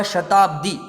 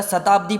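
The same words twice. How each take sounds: First: शताब्दी begun with sh, "shatabdi"; correct sibilant. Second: शताब्दी begun with s, "satabdi"; common mispronunciation. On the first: Teacher giving the right form, शताब्दी as "shatabdi". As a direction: open शताब्दी on a clear sh. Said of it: "इसका सही क्या होगा". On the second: Teacher showing most people's mistake, शताब्दी as "satabdi". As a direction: open शताब्दी on a plain s. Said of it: "अधिकांश लोगों के उच्चारण में". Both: Shown as a demonstration.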